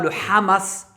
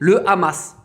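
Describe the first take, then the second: First: Hamas is said with a Hebrew pronunciation. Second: Hamas is said with a French pronunciation. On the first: "en mode hébreu" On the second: "vous le dites en français"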